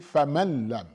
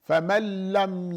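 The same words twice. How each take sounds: First: The n is clearly sounded before the l. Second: The n merges fully into a doubled l. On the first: The speaker calls it wrong. "You don't say" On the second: The speaker calls it right. "there should be no noon"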